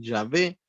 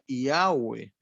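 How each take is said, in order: First: The middle consonant is pronounced as a V. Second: The middle consonant is pronounced as a U/W. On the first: "se puede pronunciar como una V cuando le dicen Yahvé" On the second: "si se pudiera pronunciar como una U sería Yahweh"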